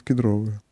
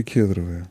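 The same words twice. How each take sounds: First: Кедро́вые, stress on ДРО, lower and softer; stress on second syllable. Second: Ке́дровые, stress on КЕД, lower and softer; stress on first syllable. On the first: Shown as a demonstration. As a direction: say кедровые as кед-РО-вые. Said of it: "вот так надо говорить". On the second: Retold or imitated. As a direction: say кедровые as КЕД-ро-вые. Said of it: "всегда говорили".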